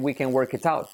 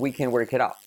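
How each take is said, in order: First: The t in 'it out' is a clear t. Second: The t in 'it out' is a soft tap. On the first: The speaker calls it wrong. "they don't say" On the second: The speaker calls it right. "this tapped T, uh, T becomes a soft R"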